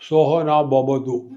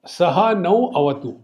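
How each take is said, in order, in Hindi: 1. अंतिम शब्द b ध्वनियों के साथ बोला गया है। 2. अंतिम शब्द v ध्वनि के साथ बोला गया है।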